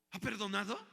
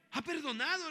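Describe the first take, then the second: First: Asked with a questioning rise; rhetorical question. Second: Much higher and louder, triumphant; emphatic answer. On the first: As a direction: ask "¿Ha perdonado?" as if testing the room. Asks then answers himself. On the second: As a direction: answer "Ha perdonado" with a high, ringing lift on "perdonado". Answers his own question. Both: Shown as a demonstration.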